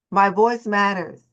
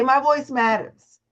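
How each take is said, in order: First: Said in the usual way. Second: Slow, stressed on voice; affirmation. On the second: Shown as a demonstration. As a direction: say it slowly, leaning on voice.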